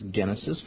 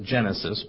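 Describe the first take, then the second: First: The word is said with Greek pronunciation. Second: The word is said with English pronunciation. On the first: "but it's in Greek it's genesis" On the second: "We pronounce it Genesis"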